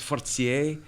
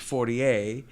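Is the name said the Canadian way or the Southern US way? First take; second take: Canadian; Southern. First: The name is said the Canadian French way. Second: The name is said the Southern US way.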